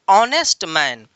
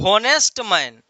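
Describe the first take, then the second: First: The first word begins with a vowel sound. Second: The first word begins with an h sound. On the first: The speaker calls it right. "Right pronunciation is" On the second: The speaker calls it wrong. "लेकिन एच silent है"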